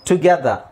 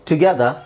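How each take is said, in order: The two takes are said the same way.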